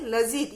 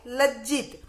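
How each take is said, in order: First: लजीज as "la-jeet", one single j; single-consonant misspelling. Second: लज्जित as "laj-jit", holding the double j; teacher's careful model of लज्जित, half j then full j; doubled j. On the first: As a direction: sound out the misspelt लजीज without doubling the j. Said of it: "इसको उच्चारण होगा लजीज". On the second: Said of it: "लेकिन सही शब्द कौन सा है". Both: Shown as a demonstration.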